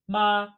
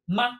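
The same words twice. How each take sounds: First: The pitch does not dip. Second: It is said lightly with no tone. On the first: It means mother. "Like mom" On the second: It turns a sentence into a question. "notice ma has no tone"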